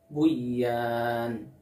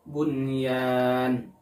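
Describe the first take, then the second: First: The n sound is merged into the y. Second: The n sound is pronounced clearly before the y. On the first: The speaker calls it wrong. "Jadi jangan dibaca buyan" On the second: The speaker calls it right. "Contoh yang lain, bunyan"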